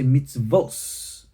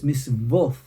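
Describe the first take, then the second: First: The word ends with an s sound. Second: The word ends with a th sound.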